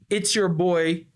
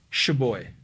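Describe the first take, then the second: First: Every sound of it's your is said clearly. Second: It's your shrinks to a single sh sound. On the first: "Ao invés de falar it's your" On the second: "It's your vira sh"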